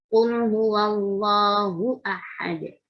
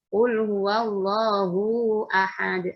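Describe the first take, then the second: First: The vowel in 'hu' is kept short. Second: The vowel in 'hu' is drawn out long. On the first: The speaker calls it right. "Karena bukan mat itu ya" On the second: The speaker calls it wrong. "jangan dipanjangkan ya hunya ya, jangan dibaca"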